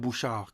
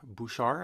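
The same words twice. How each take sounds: First: The name is said with a French accent. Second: The name is said with an English accent. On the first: "in French we say" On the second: "I guess you say in English"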